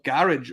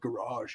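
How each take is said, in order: First: The word is said with a British pronunciation. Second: The word is said with an American pronunciation.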